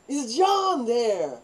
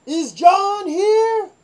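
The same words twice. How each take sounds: First: Said in the usual way. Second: Very high, loud, very slow echo; mock guard echo. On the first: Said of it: "How about John?". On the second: Barracks guard echoing the caller, very high and slow. Guard repeats the girls' question.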